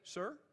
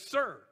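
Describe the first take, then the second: First: It is said as a puzzled question. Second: It is said as a firm statement. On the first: The speaker did not hear and asks for a repeat. "I can't hear him. And I will say" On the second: The speaker respectfully accepts an order. "the commander said, "Do something," I would say"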